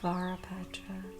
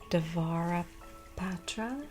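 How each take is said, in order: First: The word begins directly with a V sound. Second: The word begins with a pronounced D sound. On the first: "Sometimes that first letter gets ignored" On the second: "Do you ignore the D or do you ignore the V or do you pronounce them both?"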